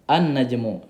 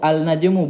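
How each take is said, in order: First: The L sound merges into a doubled N. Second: The L sound is clearly pronounced before N. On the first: The speaker calls it right. "tapi dibaca dengan an, langsung masuk ke nunnya ini" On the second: The speaker calls it wrong. "Jadi bukan bacanya al al-najmu, al-najmu bukan"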